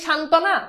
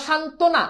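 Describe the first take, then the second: First: সান্ত্বনা said as "shan-tɔ-na" with an open vowel after t, rising like a question; teacher's mistaken version of সান্ত্বনা, open ɔ on the t; wrong pronunciation. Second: সান্ত্বনা said as "shan-to-na" with a closed o after t, falling; teacher's corrected version of সান্ত্বনা, round o on the t; correct pronunciation. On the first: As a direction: offer সান্ত্বনা questioningly as "shantɔna". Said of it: "উচ্চারণ করে সান্ত্বনা". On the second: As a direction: settle সান্ত্বনা firmly as "shantona". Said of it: "তয় সাথে ওকার উচ্চারণ". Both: Shown as a demonstration.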